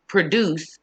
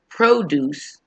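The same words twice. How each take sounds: First: "produce" as the verb, short "pruh", stress on "duce"; verb pronunciation. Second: "produce" as the noun, stressed long "proh" first syllable; noun pronunciation. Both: Shown as a demonstration. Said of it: "So we pronounce it differently too".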